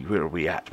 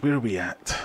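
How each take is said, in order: First: Said in the usual way. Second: Lightly voiced silly repeat, a bit higher; playful put-on voice. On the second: Streamer repeating himself to chat, playful put-on voice. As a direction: toss the question again in a goofy voice.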